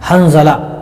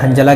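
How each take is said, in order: First: The middle consonant is a z sound. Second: The middle consonant is a j sound. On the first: The speaker calls it right. "हंज़ला यानी ज़ा से है" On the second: The speaker calls it wrong. "यानी जीम से पढ़ रहे हैं"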